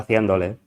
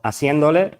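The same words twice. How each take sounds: First: The consonant after the first vowel is a th sound. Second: The consonant after the first vowel is an s sound. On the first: This is the standard Castilian form. "en lugar de haciéndole" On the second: This is how rural Andalusian people spoke. "o haciéndole"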